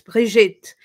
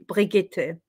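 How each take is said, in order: First: The name is said with a French pronunciation. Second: The name is said with a German pronunciation. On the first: The speaker calls it right. "I'm Swiss French, so it's Brigitte" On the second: The speaker calls it wrong. "If I was Swiss German, then it would be Brigitte. I don't like it. It sounds too harsh"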